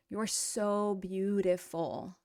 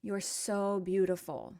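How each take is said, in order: First: So drawn out slowly; stress on so. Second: Said in the usual way. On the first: Shown as a demonstration. Teacher translating a song line, stretching "so". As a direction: lean on "so" and stretch it.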